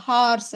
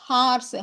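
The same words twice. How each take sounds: Both takes have the same delivery.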